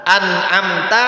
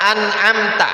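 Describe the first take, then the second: Both takes have the same delivery.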